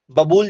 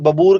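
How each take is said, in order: First: Said in the usual way. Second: बबूर with a final R in place of L; regional variant pronunciation. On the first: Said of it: "जिसे कहते हैं normally". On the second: Shown as a demonstration. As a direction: say बबूर, ending on an R sound. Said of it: "कुछ लोग बबूर कहते हैं".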